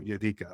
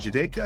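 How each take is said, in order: First: The name begins with a Y sound. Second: The name begins with a J sound. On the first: The speaker calls it right. "J is like a Y" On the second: The speaker calls it wrong. "Is that is that how I the correct pronunciation?"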